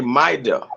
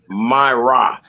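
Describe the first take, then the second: First: The r sounds like a quick d tap. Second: The r sounds like an English r. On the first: This is how Spanish speakers say the name. "They're gonna say Maida" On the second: This is how English readers say the name. "We reading in an English way"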